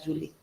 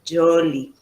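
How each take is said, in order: First: The first vowel is a 'u' sound. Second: The first vowel is an 'o' sound. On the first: "Ellos no podían pronunciar Julie" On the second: "me decían Jolie"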